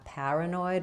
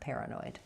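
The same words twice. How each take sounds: First: The first syllable has an open 'ah' vowel. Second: The first syllable has an 'air' vowel. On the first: The speaker is from New York or Boston. "more like pa, paranoid with the ah vowel. That would be a New York or Boston accent" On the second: This is the form heard across most of the country. "More typical across broader uh, sections of the U S, pair"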